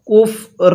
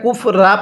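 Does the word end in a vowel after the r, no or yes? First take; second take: no; yes. First: The word ends on a bare r sound. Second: The word ends with an a vowel after r. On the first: The speaker calls it right. "কিভাবে পড়ব? কুফ র" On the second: The speaker calls it wrong. "এটা কুফ রা পড়ব না"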